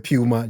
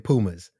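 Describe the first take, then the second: First: It is said with a British pronunciation. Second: It is said with an American pronunciation. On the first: "We over here say Puma" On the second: "You guys say Pumas"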